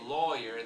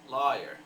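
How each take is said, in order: First: The first vowel is rounded, as in 'law'. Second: The first vowel is unrounded, as in 'far'. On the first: "So they don't really say lawyer" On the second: "They say something more like lawyer"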